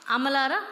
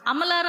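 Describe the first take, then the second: First: Said in the usual way. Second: "అమలారా" pushed higher and louder in mockery; mocking repeat. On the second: Preacher to women, mocking a movie misquote, raised and loud. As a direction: make "అమలారా" sound ridiculous, higher and louder. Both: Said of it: "అన్నాడా?".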